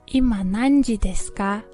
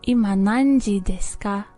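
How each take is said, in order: The two takes are said the same way.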